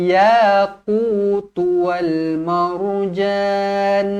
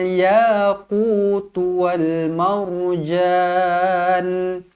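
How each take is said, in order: The two takes are said the same way.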